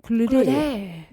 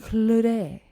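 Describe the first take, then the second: First: The name is said with a French accent. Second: The name is said with a French accent.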